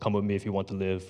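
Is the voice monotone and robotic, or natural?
monotone. It is said in a flat, monotone robotic voice.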